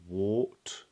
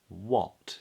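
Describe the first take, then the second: First: The vowel is an or sound. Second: The vowel is a short o sound. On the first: The speaker calls it wrong. "or wart" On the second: The speaker calls it right. "but what. It's a little O vowel"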